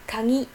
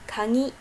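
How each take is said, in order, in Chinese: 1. g 读成鼻音 ng。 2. g 读成鼻音 ng。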